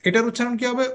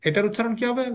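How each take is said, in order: The two takes are said the same way.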